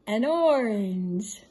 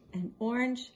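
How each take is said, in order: First: Drawn-out, louder "orange"; slow, loud reveal. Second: Said in the usual way. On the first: Shown as a demonstration. Grandma revealing the riddle answer to grandkids, slow and loud. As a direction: stretch out "orange" to announce the answer.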